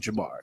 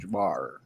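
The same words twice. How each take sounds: First: The name ends without an extra growled R. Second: The name ends with an extra growled R. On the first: The speaker calls it right. "the second R is silent. It's just say Jamar" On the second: The speaker calls it wrong. "make it have a roar or a grr"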